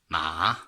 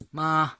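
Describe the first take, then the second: First: The syllable carries the third tone. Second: The syllable carries the first tone. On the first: It means horse. "third meaning, ma, horse" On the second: It means mother.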